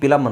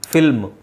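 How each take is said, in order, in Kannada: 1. ಪದ p ಶಬ್ದದಿಂದ ಶುರುವಾಗುತ್ತೆ. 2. ಪದ f ಶಬ್ದದಿಂದ ಶುರುವಾಗುತ್ತೆ. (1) "ಕೆಲವರು ಪಿಲಮ್ ಅಂತಾರೆ" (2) "ಎಫ್ ಸೌಂಡ್ ಬರಬೇಕು"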